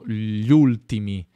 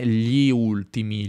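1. La i di «gli» viene omessa. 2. La i di «gli» si pronuncia chiaramente. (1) "ma è di fatto ... È una pronuncia più naturale" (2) "La pronuncia spesso non è"

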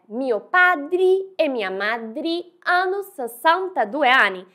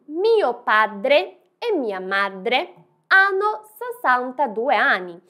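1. Padre e madre terminam com sons de I. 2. Padre e madre terminam com sons de E claros. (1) "estamos falando que meus pais e minhas mães têm sessenta e dois anos" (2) "Meu pai e minha mãe têm sessenta e dois anos"

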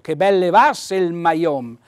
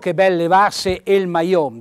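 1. Una delle due vocali che si scontrano cade. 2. Le due vocali che si scontrano si pronunciano separatamente. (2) "non dico"

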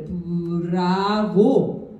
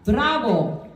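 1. 음절들이 고르고, 강한 강세는 없어요. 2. 한 음절에 강한 이탈리아식 강세가 있어요. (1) "그냥 써져 있는 대로" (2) "악센트는 한번 붙여서"

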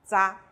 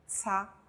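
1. 第一个辅音是浊音，像 dz。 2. 第一个辅音是清音，像 ts。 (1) "浊音的呢，发z 的音" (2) "先看轻音c 的发音"

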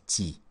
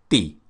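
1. Звук t мягкий и палатализованный. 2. Звук t твёрдый, не палатализованный. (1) "Стараемся не произносить, чтобы это не звучало как «ти»" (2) "согласный звук «т» оставляем максимально твердым. То есть прозвучит как «ти»"

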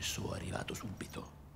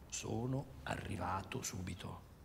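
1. Le consonanti doppie si pronunciano brevi, come quelle singole. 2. Le consonanti doppie si pronunciano lunghe e chiare. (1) "non si dice sono arrivato subito" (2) "Le doppie, le consonanti, tutte le sillabe"

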